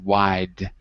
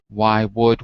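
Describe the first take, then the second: First: The words merge into one contracted syllable. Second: Two separate words are said in full. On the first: "If we were speaking quickly, we'd contract why would, and we'd say wide" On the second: "we'd contract why would"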